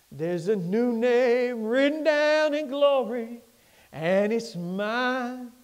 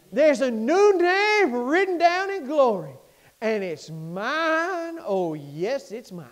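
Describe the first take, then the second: First: Slow, half-sung hymn line; sung, gospel hymn line, slow; slow sung refrain. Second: Sung, gospel refrain, slow then hushed. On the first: Sung refrain first time. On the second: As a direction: sing the hymn line out then let it die. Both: Acted.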